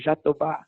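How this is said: The word is said with a Brazilian pronunciation. "it's pronounced in Brazil as Jatoba"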